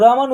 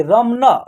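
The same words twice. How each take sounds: First: "रमन" ending on a closed n; "रमन" with the final न left bare; correct pronunciation. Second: "रमना" with an added final aa; "रमना" with the last न opened into ना; wrong pronunciation. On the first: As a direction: say "रमन" as ra-man, with no vowel after the n. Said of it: "हम लोग रमन उच्चारण करेंगे". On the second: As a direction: say "रमना" as ram-naa, ending on an open vowel. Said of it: "ऐसे कि रमना उच्चारण नहीं होगा". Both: Shown as a demonstration.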